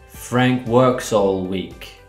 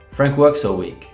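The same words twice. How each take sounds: First: Every syllable gets equal full weight. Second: The small words are cut short and weak. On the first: The speaker calls it wrong. "instead of saying every syllable like this" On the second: The speaker calls it right. "a native speaker would say something more like this"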